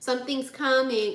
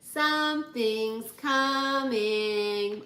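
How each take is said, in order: First: It is said in a plain, ordinary voice. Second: It is said in a put-on, imitating voice.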